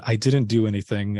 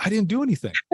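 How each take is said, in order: First: Said in the usual way. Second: High-pitched, alarmed protest; a sudden squeak of retold panic; startled denial. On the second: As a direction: blurt it out in shocked innocence. Grandma asks what he did.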